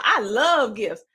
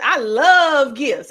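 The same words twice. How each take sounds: First: Said in the usual way. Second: Slow, louder I love gifts with love stretched; a hammed-up gift lover, louder and slow; mock gift lover. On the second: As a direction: lean on love, slow and delighted. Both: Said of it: "you're probably saying".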